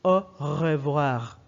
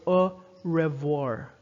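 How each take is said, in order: First: "au revoir" with R vibrating in the throat; slow, emphatic "au revoir", throaty French R; French guttural R. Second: "au revoir" with an English R; slow "au revoir", R as in English "red". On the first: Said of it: "It's French R is". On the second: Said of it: "English R is". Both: Shown as a demonstration.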